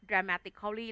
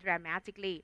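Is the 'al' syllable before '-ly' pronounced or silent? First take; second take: pronounced; silent. First: The 'al' syllable before '-ly' is pronounced. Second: The 'al' syllable before '-ly' is silent. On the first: The speaker calls it wrong. "เราจะไม่อ่านว่า" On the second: The speaker calls it right. "อ่านว่า"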